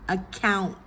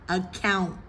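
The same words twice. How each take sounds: Both takes have the same delivery.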